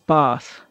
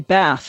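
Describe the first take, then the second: First: It is said with a British accent. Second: It is said with an American accent.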